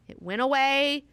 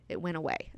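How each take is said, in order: First: Higher and louder, a happy burst; bright emphatic cry of victory; triumphant. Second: Said in the usual way. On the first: Real, not acted. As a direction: crow about the win. Triumphant repeat of the cure.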